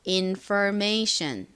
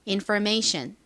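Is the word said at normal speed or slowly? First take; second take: slowly; normal. First: The word is said slowly. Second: The word is said at normal speed.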